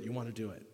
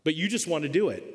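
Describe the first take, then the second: First: The repeated line dropping almost to nothing; fading softer. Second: Said in the usual way. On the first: Shown as a demonstration. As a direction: let the last repeat fade away softly. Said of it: "repeated line, fading out". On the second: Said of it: "repeated line, plain first take".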